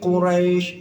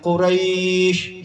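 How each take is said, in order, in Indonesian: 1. Vokalnya pendek dan memudar di akhir. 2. Vokalnya dibaca panjang. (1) "dua aja" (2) "jangan gitu"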